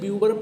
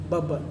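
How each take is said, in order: First: The first syllable has a 'byoo' sound. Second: The first syllable has a short 'bub' sound. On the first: The speaker calls it wrong. "कुछ लोग उसे ब्यूबर pronounce करते हैं" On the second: The speaker calls it right. "Correct pronunciation जो होगी वो बबर ही होगी"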